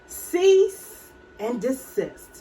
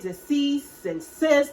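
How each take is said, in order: First: The phrase starts with cease and ends with desist. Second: The phrase starts with deceased and ends with cyst. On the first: The speaker calls it right. "I understand that it is cease and desist" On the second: The speaker calls it wrong. "I think I said deceased and cyst or whatever"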